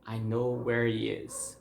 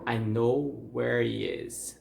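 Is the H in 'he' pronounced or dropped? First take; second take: dropped; dropped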